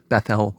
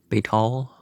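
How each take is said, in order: First: The name is said in its Hebrew form. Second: The name is said in its contemporary form. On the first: "Bethel would be the Hebrew pronunciation" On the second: "the contemporary pronunciation would have been Bethal"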